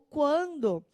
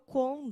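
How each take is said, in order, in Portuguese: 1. A palavra é falada na forma completa. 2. A palavra é falada com sons omitidos. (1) "o quando" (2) "ele tirou o que e o u, virou quando"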